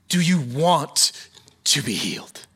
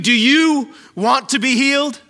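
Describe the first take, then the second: First: The stress is on the word want. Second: The stress is on the word you.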